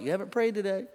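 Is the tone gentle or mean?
gentle. It is said in a gentle, kind tone.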